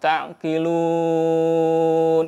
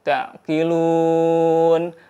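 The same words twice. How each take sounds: First: The stretched vowel is held for six counts. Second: The stretched vowel is held for four counts. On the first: "boleh juga enam harokat" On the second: "boleh empat harokat"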